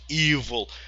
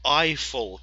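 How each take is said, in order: First: The first vowel sounds like 'ee'. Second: The first vowel sounds like 'eye'. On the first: The speaker calls it wrong. "not evil" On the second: The speaker calls it right. "This is how you pronounce it"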